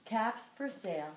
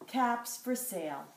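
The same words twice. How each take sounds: The two takes are said the same way.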